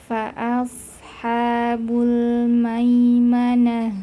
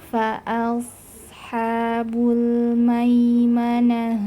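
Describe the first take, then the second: No difference in how they are said.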